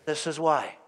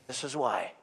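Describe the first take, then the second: First: Said in the usual way. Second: "This is why" said again much softer; softer repeat. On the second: Shown as a demonstration. Preacher repeating his point to the congregation, softer. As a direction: let "This is why" drop to a quiet echo.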